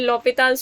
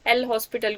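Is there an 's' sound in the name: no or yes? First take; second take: no; yes. First: It is said 'lopital' with no 's' sound. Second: It is said 'el hospital' with an 's' sound. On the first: The speaker calls it right. "Correct ये होती है" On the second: The speaker calls it wrong. "सब एल हॉस्पिटल ही पढ़ते हैं"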